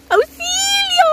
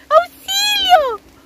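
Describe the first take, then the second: First: Very high playful call of auxilio; mock cry for help. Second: Auxilio stretched very slow and very high; drawn-out mock cry for help. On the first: Stuck in the rain, joking to viewers, very high mock call for help. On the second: Stuck in the rain, hamming it up to viewers with a long high wail.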